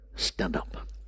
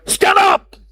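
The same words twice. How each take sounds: First: It is said softly, almost whispered. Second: It is yelled loudly.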